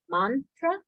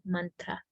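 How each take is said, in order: First: The first vowel is not an 'uh' sound. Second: The first vowel is an 'uh' sound. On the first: "You'll hear it commonly said mantra" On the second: "the A is a little more uh sound, as in cut"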